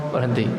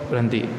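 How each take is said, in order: The two takes are said the same way.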